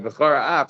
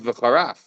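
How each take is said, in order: First: The two words are kept clearly separate. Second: The two words are run together as one. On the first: The speaker calls it right. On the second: The speaker calls it wrong.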